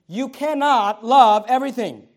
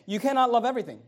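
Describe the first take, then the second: First: "You cannot love everything" louder and slow, each word weighted; emphatic repetition. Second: Said in the usual way. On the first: Real, not acted. Repeats statement for emphasis.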